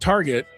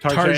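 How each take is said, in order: First: It is pronounced in a plain English way. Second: It is pronounced in a mock French way. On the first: It is just an ordinary store. "not Target" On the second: It is treated as a fancy boutique. "Same way my wife calls it, that's the French way"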